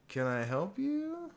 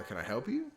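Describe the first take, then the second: First: High, slow, drawn-out question; put-on reporter voice. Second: Said in the usual way. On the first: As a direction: stretch it out and lift it high, hammed-up. Another try at reporter's line.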